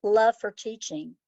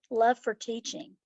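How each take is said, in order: First: Slow, weighty first take; emphatic. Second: Said in the usual way. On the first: Real, not acted. Answering the interviewer, she stresses love slowly.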